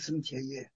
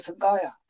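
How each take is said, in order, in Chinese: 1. 中间的音节读作 'qie'。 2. 中间的音节读作 'ga'。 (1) "现在普通话读到“增切也”" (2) "在古代就读到“增嘎呀”"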